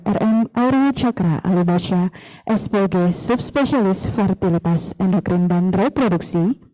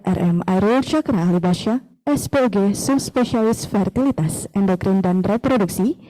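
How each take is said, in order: Both takes have the same delivery.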